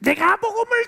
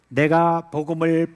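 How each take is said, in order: First: It is shouted at the top of the voice. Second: It is said loudly but in a controlled voice. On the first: The speaker calls it wrong. "소리 지르는 건 어떻게 하는 건지 알아요? ... 이렇게 하는 거예요" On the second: The speaker calls it right. "큰 소리는 이래요"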